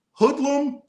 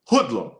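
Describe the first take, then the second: First: Playful high squeal. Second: Said in the usual way. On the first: Shown as a demonstration. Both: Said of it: "My youngest, hoodlum, hoodlum".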